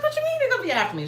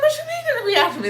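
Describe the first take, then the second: First: Same high rushed alarm; panicked question. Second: High, loud, fast alarmed question; shrill squeak of alarm, rushing; panicked question. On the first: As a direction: repeat the panicked squeak. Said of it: "I was like". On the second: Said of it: "And I'm like". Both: Retold or imitated.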